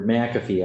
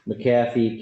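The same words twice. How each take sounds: First: McAfee with stress on the first syllable, MACK-uh-fee; corrected pronunciation. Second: McAfee with stress on the second syllable, muh-KAF-ee; mispronounced name. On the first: Judge correcting the defendant's name to MACK-uh-fee. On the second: Judge reading out the defendant's name, mispronounced as muh-KAF-ee. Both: Real, not acted. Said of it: "I keep saying that wrong".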